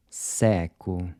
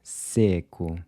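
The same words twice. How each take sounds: First: Seco with an open E, like the E in air; seco, mouth wide on the E. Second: Seco with a closed E, like a short "say"; seco, E clipped and tight. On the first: Teacher models Portuguese seco with an open E. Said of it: "open E's in purple are pronounced". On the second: Teacher models Portuguese seco with a closed E. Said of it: "closed E". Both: Shown as a demonstration.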